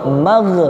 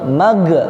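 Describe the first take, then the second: The two takes are said the same way.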